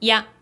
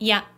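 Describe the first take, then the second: First: A short first vowel merges into one sound. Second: The same.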